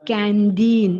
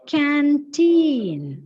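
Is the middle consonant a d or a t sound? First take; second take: d; t. First: The middle consonant is a d sound. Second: The middle consonant is a clear t sound. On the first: The speaker calls it wrong. "It is not canteen. D, D sound അല്ല അവിടെ" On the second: The speaker calls it right. "So correct pronunciation is canteen"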